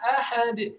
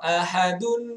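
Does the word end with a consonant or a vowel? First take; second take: consonant; vowel. First: The word ends abruptly on a bare consonant. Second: The word ends with the vowel-plus-n sound 'un'. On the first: The reader stops at this word. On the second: The reading continues without stopping.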